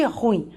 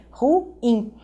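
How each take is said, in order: First: "ruim" in one syllable, RUIM; pronúncia errada. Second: "Ruim" split slowly into ru, IM; duas sílabas. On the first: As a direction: run "ruim" together, stressing the U. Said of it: "Não é nada de". ("ruim" numa sílaba só, tônica no U) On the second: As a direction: break "Ruim" into two syllables. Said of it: "são duas sílabas". ("Ruim" silabado, ru-IM) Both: Shown as a demonstration.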